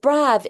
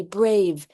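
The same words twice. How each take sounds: First: "brav" said with a short a, as in "cat"; short vowel demo. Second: "brave" said with a long a that says its name; long vowel demo. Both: Shown as a demonstration. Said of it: "your silent E".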